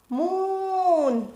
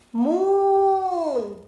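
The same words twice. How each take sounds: First: Moon with a long oo, a little shorter. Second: Moon with a long drawn-out oo. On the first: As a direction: hold the oo in Moon. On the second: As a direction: stretch the oo in Moon, mooon. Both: Shown as a demonstration. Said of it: "Long sound".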